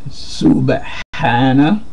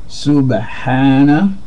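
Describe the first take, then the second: No difference in how they are said.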